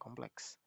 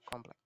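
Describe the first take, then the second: First: The word ends with a KS cluster. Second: The word ends with a plain K. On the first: This is how educated speakers say it. "gugus konsonan akhir kes sering terdapat dalam ujaran kaum yang berpendidikan" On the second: This is how speakers without formal schooling say it. "Bagi orang yang tidak dapat menikmati pendidikan formal, bentuk-bentuk tersebut sering diucapkan"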